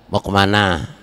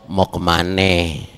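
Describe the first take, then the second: First: The last word ends with an 'a' sound. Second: The last word ends with an 'e' sound. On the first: This is how local Betawi speakers say it. "Sini Betawinya" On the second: This is how speakers from the other area say it. "belah sono"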